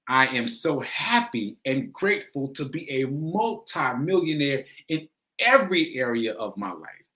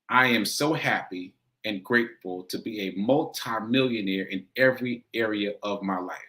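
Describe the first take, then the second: First: It is said with strong, heartfelt emotion. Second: It is said plainly, without strong feeling.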